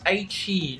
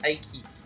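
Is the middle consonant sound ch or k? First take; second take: ch; k. First: The middle consonant is a ch sound. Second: The middle consonant is a k sound. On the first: The speaker calls it right. "it's pronounced as Aichi" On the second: The speaker calls it wrong. "not Aiki"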